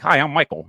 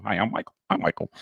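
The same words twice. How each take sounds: First: Higher, louder eager greeting; a hint of nervous eagerness; eager intro. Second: Said in the usual way. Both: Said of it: "I'm introducing myself".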